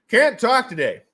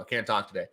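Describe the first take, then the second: First: Loud, high repeat; mock exasperated outburst. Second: Said in the usual way. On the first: Mock outburst at stumbling over words.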